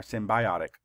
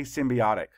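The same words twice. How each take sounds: First: Symbiotic said as sim-bye-OT-ic, with a long bye in the middle; other pronunciation. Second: Symbiotic said as sim-bee-OT-ic, with a short ee in the middle; first pronunciation. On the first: Teacher offering students the alternative, sim-bye-OT-ic. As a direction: say symbiotic with bye, not bee. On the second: Teacher giving students one way to say it, sim-bee-OT-ic. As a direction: say symbiotic with bee, not bye. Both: Shown as a demonstration. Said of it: "Depends on how you say it".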